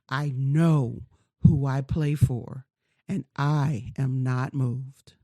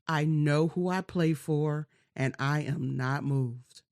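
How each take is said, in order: First: It is said slowly and firmly. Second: It is said at normal speed.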